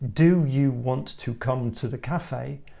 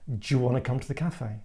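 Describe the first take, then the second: First: Each word is said fully and carefully. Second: The words are fast, reduced and run together.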